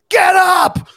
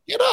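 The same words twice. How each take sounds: First: It is yelled loudly. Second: It is said calmly, without yelling.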